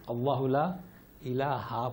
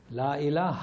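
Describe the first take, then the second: First: اللہ لا الہ read with a final a, as ilaha; common wrong reading. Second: لا الہ ending cleanly on ilah, no final ha; correct reading. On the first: Teacher demonstrates how most people misread it, ilaha. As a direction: show the mistake, ending الہ on ilaha. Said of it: "کیا لکھا ہوا ہے". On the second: Teacher gives the class the correct reading, ilah. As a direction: stop الہ on the h, never ilaha. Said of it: "نہ کہ ہا". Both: Shown as a demonstration.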